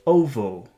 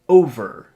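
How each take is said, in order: First: The R is replaced by a W-like sound. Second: The word ends with a light R sound. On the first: "Let's pronounce it like a W" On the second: "It starts flat and then it becomes tense like this"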